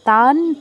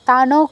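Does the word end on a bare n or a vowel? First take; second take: bare n; vowel. First: The word ends on a bare n sound. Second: The word ends with an added o vowel. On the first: The speaker calls it right. "তানের নটা half হবে" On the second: The speaker calls it wrong. "তানও কিন্তু নয়"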